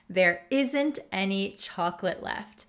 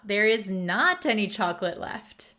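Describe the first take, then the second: First: The words are contracted into one short form. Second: The words are said in full, stressing not. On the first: It is the casual everyday way of saying it. "This is the more conversational way we would say it" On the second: The speaker is emphasizing the negation. "a lot of the times you're emphasizing the not"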